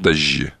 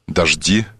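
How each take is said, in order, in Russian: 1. Середина — долгий мягкий звук 'zh'. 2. Середина — 'zh', после которого слышен отчётливый 'd'. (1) "Также вожжи, как дожди, и дожди, как вожжи" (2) "мне больше нравится питерский"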